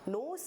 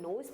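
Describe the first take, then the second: First: The word ends with an s sound. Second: The word ends with a z sound. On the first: The speaker calls it wrong. "नोस नहीं पढ़ेंगे" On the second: The speaker calls it right. "नोज पढ़ेंगे"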